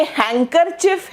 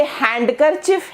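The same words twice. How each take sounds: First: हैंकरचिफ with the D silent; pronunciation option. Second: हैंडकरचिफ with the D sounded; pronunciation option. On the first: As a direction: say हैंकरचिफ slowly as 'hang-ker-chif', dropping the D. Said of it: "ये हैंकरचिफ है". (हैंकरचिफ में 'ड' न बोलें) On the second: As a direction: say हैंडकरचिफ as 'hand-ker-chif', keeping the D. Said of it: "ये हैंडकरचिफ है". (हैंडकरचिफ में 'ड' बोलें) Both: Shown as a demonstration.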